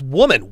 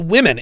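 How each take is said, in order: First: The word sounds like the singular form. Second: The word sounds like the plural form. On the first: The speaker calls it wrong. "It's always woman" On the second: The speaker calls it right. "the proper plural pronunciation of women"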